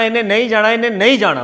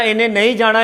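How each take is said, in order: First: ਇਹਨੇ ਨਹੀਂ ਜਾਣਾ repeated slowly, each word spelled out with weight on ਨਹੀਂ; slow down and lean on ਨਹੀਂ to close the matter; firm repeat. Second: Said in the usual way. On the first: Acted. Husband telling the old man his decision is final, slow, stressing ਨਹੀਂ. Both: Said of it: "ਜਦੋਂ ਇੱਕ ਵਾਰੀ ਕਹਿ ਤਾ ਨਾ".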